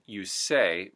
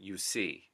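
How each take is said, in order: First: The vowel in 'say' sounds like 'ay'. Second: The vowel in 'say' sounds close to 'ee'. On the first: "The A sound" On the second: "almost becomes an E sound"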